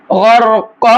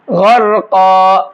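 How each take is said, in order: First: غرقا carried on without stopping into the next word; joined form. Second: غرقا ending on a long stopped قا; stopping form. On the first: Teacher shows the joined form of غرقا for students. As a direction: recite غرقا flowing straight on, no pause at the end. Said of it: "اگر آیت نہیں کرتے". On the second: Teacher shows the pause form of غرقا for students. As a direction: recite غرقا stopping at the verse end with a long final قا. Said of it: "آیت کرنے کی صورت میں". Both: Shown as a demonstration.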